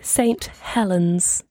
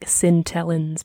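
First: It is said in a standard, careful accent. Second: It is said in the local accent.

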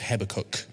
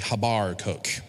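First: It is said in a standard British accent. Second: It is said in a West Country accent.

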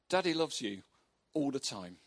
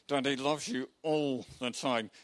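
First: It is said in a normal, warm voice. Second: It is said tensely through gritted teeth.

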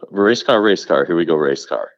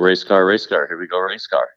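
First: It is said forcefully, with lots of energy. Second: It is said flatly, without much energy.

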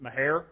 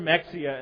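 First: The name ends with a 'hair' sound. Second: The name ends with an 'ee-ah' sound. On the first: This is how some older rural locals say it. "If you're I don't know, 85 and a redneck, you pronounce it Mahair" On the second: This is the spelling-based pronunciation machines understand. "it's never Mexia unless you're talking to navigational equipment"

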